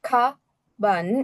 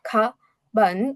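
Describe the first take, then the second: The two takes are said the same way.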